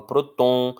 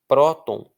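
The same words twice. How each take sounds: First: Próton wrongly stressed on the last syllable, TON; stress moved to TON. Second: Próton with a louder first syllable PRÓ; stress on PRÓ. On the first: Teacher shows how nobody says próton, stress on TON. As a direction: say pro-TÔN, strong ending. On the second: Teacher reads an example word, stress on PRÓ. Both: Shown as a demonstration. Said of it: "eu não falo próton".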